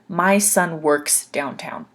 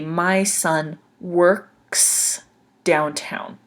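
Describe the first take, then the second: First: The sentence is spoken at a faster pace. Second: The sentence is spoken at a slower pace.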